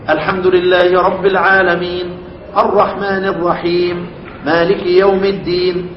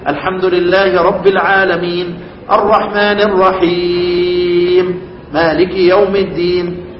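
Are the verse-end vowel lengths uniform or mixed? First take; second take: uniform; mixed. First: Every verse end is held equally short. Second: The verse ends are held to unequal lengths. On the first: The reading keeps one consistent length throughout. The speaker calls it right. "وحد قراءتك كلها بالقصر" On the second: The reading switches lengths inconsistently. The speaker calls it wrong. "ما بجيش اقول ... عيب"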